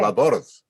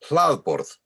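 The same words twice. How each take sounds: First: The stress is on the second syllable. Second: The stress is firmly on the first syllable. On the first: The speaker calls it wrong. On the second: The speaker calls it right. "you put the accent very firmly on the first syllable"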